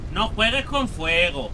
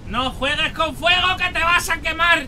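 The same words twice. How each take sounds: First: Said in the usual way. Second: High, loud cry of warning; shouted warning. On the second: Real, not acted. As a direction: yell the warning at full pitch. Repite el aviso gritando. (advertencia gritada en tono agudo)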